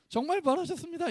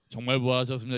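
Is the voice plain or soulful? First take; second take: soulful; plain. First: It is said in a rich, soulful voice. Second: It is said in a plain, ordinary voice. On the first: The speaker calls it right. "그 목소리 톤을 소울로 잡으세요" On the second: The speaker calls it wrong. "이러지 마시고"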